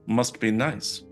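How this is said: The tone sounds odd and unintentionally cold. It may sound envious or dismissive. The speaker calls it wrong.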